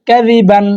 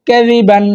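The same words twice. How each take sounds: No difference in how they are said.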